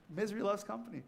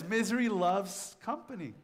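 First: Softer, with the weight on loves; quiet echo with stress on loves. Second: Preacher's stress on Misery. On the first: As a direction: repeat it quieter, landing on loves. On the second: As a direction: lean hard into the word Misery, then let it fall. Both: Shown as a demonstration.

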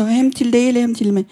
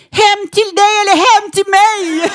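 First: Said in the usual way. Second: High, loud flirty comeback; cheeky flirt. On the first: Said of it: "Så". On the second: Retold or imitated. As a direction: toss it back playfully, teasing. Flirtig replik till rasisten.

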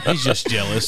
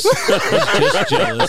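First: Laughing. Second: Sung, singsong tease. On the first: Real, not acted. Teasing a guest, laughing. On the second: Pretend. Teasing, sung out slowly.

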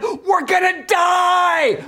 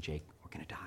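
First: High, drawn-out terrified mock scream; slow, full-volume panicked yell on a plunging ride. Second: Low, very soft deadpan aside; hushed mock confession. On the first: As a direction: scream it at the top of your lungs. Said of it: "screaming at the top of our lungs". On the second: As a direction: quietly break mock bad news. Joke confiding doom to son.

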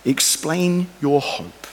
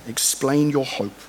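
First: "explain" drawn out slow and falling; stress on explain. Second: "Explain" slow and falling, words spaced out; stress on explain. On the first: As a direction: lean hard on "explain your hope". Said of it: "Finally, most important". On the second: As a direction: repeat "Explain your hope" slowly and firmly. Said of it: "most important". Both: Shown as a demonstration.

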